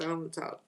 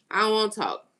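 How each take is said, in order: First: Quieter, trailing off. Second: Emphatic. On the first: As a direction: let "I don't wanna talk" fade out. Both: Real, not acted.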